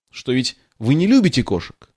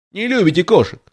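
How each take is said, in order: First: Said in the usual way. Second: Lightly voiced high mimicking squeak; a hint of a mouse mocking her words; the mouse mimics Alice in a small piercing voice. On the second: A narrator's reading. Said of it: "передразнила мышь пронзительным голоском".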